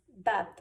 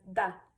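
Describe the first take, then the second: First: Said in the usual way. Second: "da" with the final d dropped; Scottish "da", a short open vowel and no d; Glaswegian da. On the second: Shown as a demonstration. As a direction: say "da" the Glasgow way for Dad. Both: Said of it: "ellos dirían da".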